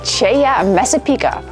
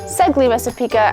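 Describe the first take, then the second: First: The name is said with local pronunciation. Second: The name is said with American pronunciation. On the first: The speaker calls it right. "This is Cheya Messapica" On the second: The speaker calls it wrong. "that's the American way. It's wrong"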